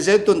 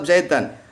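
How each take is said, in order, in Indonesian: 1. Kata itu berakhir dengan '-un'. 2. Kata itu berakhir dengan '-an'. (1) "enggak boleh diganti" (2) "tapi tetap Zaidan"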